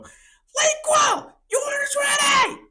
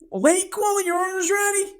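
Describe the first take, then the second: First: It is screamed out at full volume. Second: It is called out somewhat loudly. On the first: The caller no longer cares about being heard by everyone. "I'm just gonna let it rip" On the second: The caller is raising the volume a little. "I just go a little bit louder this time"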